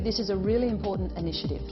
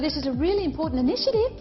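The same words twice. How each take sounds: First: The voice falls at the end of the sentence. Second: The voice rises at the end of the sentence. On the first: The speaker calls it right. "get your inflection going down at the end of the sentence" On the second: The speaker calls it wrong. "have the upward inflection at the end of their sentence"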